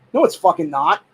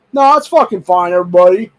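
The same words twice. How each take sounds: First: "not" stated flatly at his own pitch; blunt correction. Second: Sarcastic mock reassurance. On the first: Answering his own sarcasm to viewers, blunt denial. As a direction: drop the sarcasm and deny it bluntly. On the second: Mocking the double standard to viewers, sarcastic sneer. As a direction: sneer it as if everyone claims it's fine. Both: Real, not acted.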